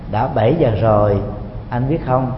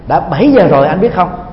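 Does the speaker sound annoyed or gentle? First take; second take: gentle; annoyed. First: It sounds soft and smiling. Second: It sounds sulky and irritated. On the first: The speaker kindly reminds the listener it is dinnertime. The speaker calls it right. "Nói nó nhẹ nhàng thôi và nở một nụ cười thật là tươi" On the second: The speaker is displeased that dinner is being delayed. The speaker calls it wrong. "nó pha một chút hờn dỗi, nó pha một chút giận tức"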